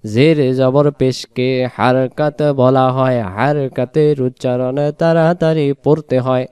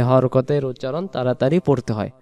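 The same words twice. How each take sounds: First: হারকাত said with open Arabic a vowels, har-kat; হারকাত with open a vowels, not hor-kot; correct pronunciation. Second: হরকতের said with Bengali o vowels, hor-ko-ter; হরকতের with flat Bengali o sounds; wrong pronunciation. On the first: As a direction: say হারকাতের with clear a sounds, har-ka-ter. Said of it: "হারকাত বলতে হয়". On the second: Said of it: "আসলে হরকত না". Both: Shown as a demonstration.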